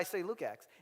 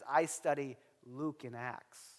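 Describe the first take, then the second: First: The phrase is said very fast, words run together. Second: The phrase is said slowly, each word said clearly.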